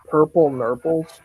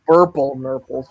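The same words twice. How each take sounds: First: "Purple Nurples" starting on a P. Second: "Burple Nurples" starting on a B; corrected to B. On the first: Friend recalling the episode title, "Purple" with a P. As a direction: say "Purple" with an unvoiced P at the front. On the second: Friend correcting the episode title, "Burple" with a firm B. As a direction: hit the B of "Burple", a little louder. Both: Real, not acted. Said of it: "wait, Burple Nurples".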